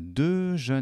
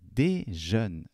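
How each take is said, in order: First: The first vowel is a neutral 'uh' sound. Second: The first vowel is a clear 'ay' sound. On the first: The speaker calls it wrong. "これがde jeune になりますけれども" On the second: The speaker calls it right. "だけど、des jeunes。ここは発音、アクセント"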